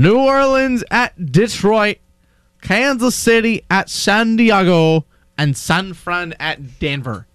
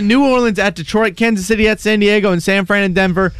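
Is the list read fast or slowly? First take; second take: slowly; fast. First: The list is read slowly. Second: The list is read very fast.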